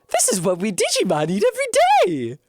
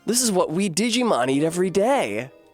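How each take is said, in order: First: It is said in a strong Akuma-style voice. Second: It is said in a milder voice.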